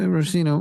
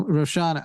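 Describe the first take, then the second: First: Rosina with a plain S, ro-SEE-na; rejected pronunciation. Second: Roshana with SH, ro-SHAH-na; proposed pronunciation. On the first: Co-host testing a donor's name, trying Rosina with S. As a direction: say "Rosina" with S, not SH. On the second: Co-host testing a donor's name, trying Roshana with SH. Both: Shown as a demonstration. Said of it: "I think it's Roshana".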